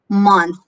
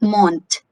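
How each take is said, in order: First: The word ends in a 'th' sound. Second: The word ends in a plain 't' sound. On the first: The speaker calls it right. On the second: The speaker calls it wrong. "it's not mont"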